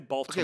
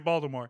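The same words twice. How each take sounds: First: The T in the middle is pronounced. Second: The T in the middle is dropped. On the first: This is how outsiders say the name. The speaker calls it wrong. "They don't say Baltimore" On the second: This is how locals say the name. The speaker calls it right. "In Baltimore, they don't say the T. ... like Voldemort. They say Baltimore"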